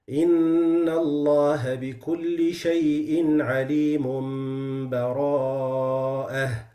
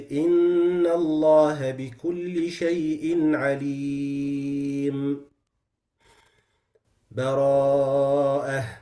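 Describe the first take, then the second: First: The two words are joined with no pause. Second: There is a long pause with a breath. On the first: "The first one is the complete wasl" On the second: "I take a breath between the two and I take enough time"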